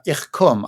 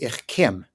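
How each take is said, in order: First: "Ich kum" said with a rounded oo vowel in kum; Central Yiddish vowel. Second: "Ich kim" with a short i, kum turned to kim; Southern Yiddish vowel. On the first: Teacher showing hosts the standard form, "Ich kum" with an oo sound. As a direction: demonstrate "Ich kum" with a clear u, like coom. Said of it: "would be "Ich kim" in the Southern dialect". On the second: Teacher contrasting the Southern dialect, "Ich kim" with an ih vowel. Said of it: "in the Southern dialect". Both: Shown as a demonstration.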